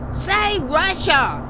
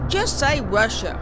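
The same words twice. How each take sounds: First: "Say Russia." stretched out slowly and higher, each word spelled out; slow emphatic repeat. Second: Said in the usual way. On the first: Acted. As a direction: spell out "Say Russia." as if to the hard of hearing. Couple repeating over wind.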